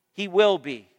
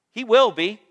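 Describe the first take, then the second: First: "He will be" falling to a close; settled affirmation. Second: "He will be" lifted at the end; rising affirmation. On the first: Preacher repeats God's promise to church, settled affirmation. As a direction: say "He will be" with a final downward tune. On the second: Preacher assures church of God's promise, rising affirmation. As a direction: say "He will be" with a rising, open ending. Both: Real, not acted.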